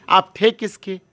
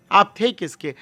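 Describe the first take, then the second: No difference in how they are said.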